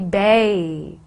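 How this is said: The vowel sounds like the one in 'bay'. "And when Cockney, it'll be bay"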